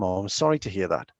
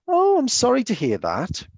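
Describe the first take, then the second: First: It is said in a low, quiet voice. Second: It is said in a higher, livelier voice. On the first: The speaker calls it right. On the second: The speaker calls it wrong. "It's not like that one"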